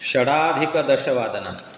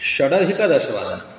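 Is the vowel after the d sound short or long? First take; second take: long; short. First: The vowel after the d is long. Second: The vowel after the d is short. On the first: The speaker calls it wrong. "षडाधिक दशवादनम हे चूक आहे" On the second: The speaker calls it right. "षडधिक दशवादनम हे आपल्या सर्वांचं उत्तर इथं राहील"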